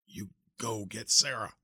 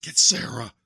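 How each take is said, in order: First: Slow, strained weak repeat; weak pleading. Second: Loud strained urgent command; urgent plea. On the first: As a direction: repeat it slowly, fading. Dying uncle repeats, weaker. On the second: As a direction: force the order out. Dying uncle urges nephew. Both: Acted.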